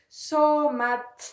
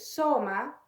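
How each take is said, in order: First: The word ends with a T sound. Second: The word ends on a vowel. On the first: "Hay que insistir en esa letra final" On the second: "la pronunciación del nominativo"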